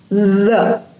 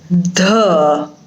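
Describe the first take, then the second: First: The first sound lets air flow past the tongue. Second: The first sound is made without air flowing through. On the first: The speaker calls it right. "but it is the" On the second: The speaker calls it wrong. "it is not the"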